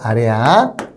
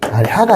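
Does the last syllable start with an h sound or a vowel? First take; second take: vowel; h sound. First: The last syllable starts directly with a vowel. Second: The last syllable starts with an h sound. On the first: The speaker calls it right. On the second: The speaker calls it wrong. "아래하가 아니라"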